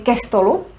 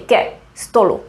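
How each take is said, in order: First: The two words run together without a pause. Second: There is a pause between the two words. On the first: The speaker calls it right. "We don't make a pause, we say ke stolu" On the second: The speaker calls it wrong. "We don't say ke stolu"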